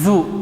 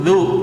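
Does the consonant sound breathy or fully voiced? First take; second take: breathy; voiced. First: The consonant lets breath flow out, sounding breathy. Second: The breath is held and only voice flows. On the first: The speaker calls it wrong. "Kalau mengalir nafas seperti ini" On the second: The speaker calls it right. "nafasnya tertahan, suaranya yang ngalir"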